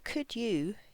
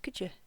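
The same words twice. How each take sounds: First: Both words are pronounced fully and clearly. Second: The words are shortened and run together. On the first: The speaker calls it wrong. "this here is not could you" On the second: The speaker calls it right. "it's could you"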